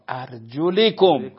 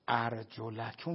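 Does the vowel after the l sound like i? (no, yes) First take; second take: yes; no. First: The l is followed by an i vowel. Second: The l is not followed by an i vowel. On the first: The feet are to be wiped. The speaker calls it right. "مکسور لام" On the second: The feet are to be washed. The speaker calls it wrong. "ارجلکم نیستا"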